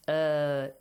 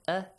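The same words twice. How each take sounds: First: The vowel is held out longer. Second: The vowel is held only briefly. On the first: "Long vowels must be pronounced with a longer sound" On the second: "short vowels must be pronounced as short vowels"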